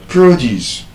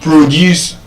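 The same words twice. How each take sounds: First: "produce" as proDUCE, second syllable stressed; verb stress. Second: "Produce" as PROduce, first syllable stressed; noun stress. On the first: Teacher contrasting same spelling, second-syllable stress on "produce". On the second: Teacher contrasting same spelling, first-syllable stress on "Produce". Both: Shown as a demonstration. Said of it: "but then different pronunciations".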